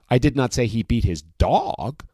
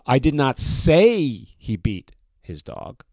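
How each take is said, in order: First: The stress is on the word dog. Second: The stress is on the word say.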